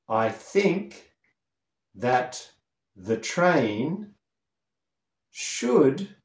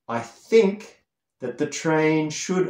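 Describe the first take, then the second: First: It is spoken noticeably more slowly. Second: It is spoken at a normal, quicker pace.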